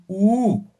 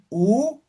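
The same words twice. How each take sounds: First: "U" held long, as one drawn-out ooo; long vowel. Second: Said in the usual way. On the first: Shown as a demonstration. Teacher showing diéresis, "U" lengthened. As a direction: stretch "U" to double length, falling. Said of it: "Simplemente van a alargar". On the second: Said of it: "En vez de decir U".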